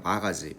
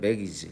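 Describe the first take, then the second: First: It is said with a Japanese-style accent. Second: It is said with a standard English accent. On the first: The speaker calls it wrong. "일본 사람들은 영어가 발음이 안 되니까 마가지, 마가지 자꾸 이래요" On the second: The speaker calls it right. "이거는 매기지"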